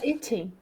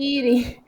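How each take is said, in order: First: It is said with a British accent. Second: It is said with an American accent. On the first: "No British ficaria eating" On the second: "puxa para o sotaque American, como se fosse um eating"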